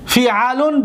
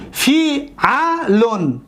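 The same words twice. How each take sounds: First: Said in the usual way. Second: فی علون very slow, broken into long syllables; fi, a, lun, each drawn out. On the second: Shown as a demonstration. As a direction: sound out فی علون piece by piece. Teacher sounds out pattern.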